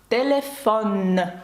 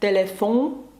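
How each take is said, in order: First: The vowel is oral and the n is pronounced. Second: The vowel is nasal and the n is dropped. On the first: The speaker calls it right. "Ми чітко вимовляємо «он» наприкінці, як літери, тобто окремі" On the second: The speaker calls it wrong. "це не телефон"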